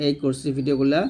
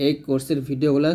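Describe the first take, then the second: No difference in how they are said.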